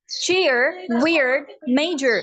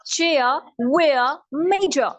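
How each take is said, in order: First: American accent. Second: British word endings in open "ah"; British accent. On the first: American take before British repeat. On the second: Teacher repeats the list for contrast, British accent. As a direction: drop the final R, British. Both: Shown as a demonstration.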